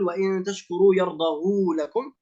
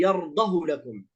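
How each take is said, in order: First: The vowel after the h is lengthened. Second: The vowel after the h is short. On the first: The speaker calls it wrong. "لم يقرأه حفص ويقول" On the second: The speaker calls it right. "قال يرضه لكم / بالهاء المضمومة فقط من غير صلة"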